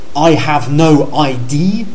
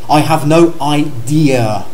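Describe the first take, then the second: First: The last word ends with a short sound. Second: The last word ends with a longer sound. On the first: I have no identity card. The speaker calls it wrong. "comme la plupart des Français" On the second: I don't know at all. The speaker calls it right. "Il y a un son plus long à la fin"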